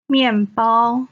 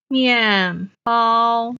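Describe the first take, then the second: First: Said in the usual way. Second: Stretched teaching 面包, falling 面, level 包; fourth, first tone. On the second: Shown as a demonstration. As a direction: say 面包 syllable by syllable, falling then level. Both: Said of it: "面 is the fourth tone".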